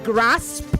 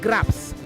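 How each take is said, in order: First: The s sound comes before the p. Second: The p sound comes before the s. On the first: The speaker calls it right. "It is grasp, S P" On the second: The speaker calls it wrong. "not grasp. not P S"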